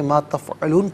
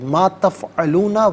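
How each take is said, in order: First: The phrase ends on n with no vowel. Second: The phrase ends with a short vowel after n. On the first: The reader stops here. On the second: The reading continues without a stop.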